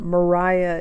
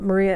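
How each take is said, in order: First: The name is said the British way. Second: The name is said the non-British way.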